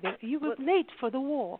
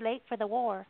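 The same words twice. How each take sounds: First: It is said in an imitated English accent. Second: It is said in a plain American accent. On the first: The speaker calls it right. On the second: The speaker calls it wrong.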